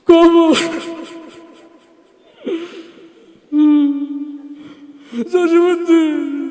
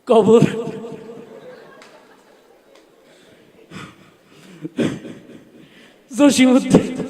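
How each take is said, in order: First: It is said tearfully, full of emotion. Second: It is said timidly and hesitantly. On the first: The reciter is overcome with emotion. "একটু emotional টাইপের ... ওর আবৃত্তির ঢং ছিল এরকম।" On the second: The reciter is too bashful to perform. "তো এরকম একটা লাজুক ছেলে আসছে মঞ্চে, তার আবৃত্তির ঢং ছিল এরকম।"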